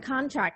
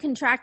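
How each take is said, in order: First: The stress is on the first syllable. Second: The stress is on the second syllable. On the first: It is a noun meaning an agreement. "I'll say the nouns first" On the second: It is a verb meaning to tighten. "and the verb second"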